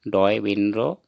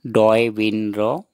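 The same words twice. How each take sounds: First: Said in the usual way. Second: डॉय विनरो said slowly and clearly, syllable by syllable; slow pronunciation demo. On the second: Shown as a demonstration. Teacher showing learners the Assamese sounds, slow and deliberate. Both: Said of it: "उच्चारण लिखा हुआ है".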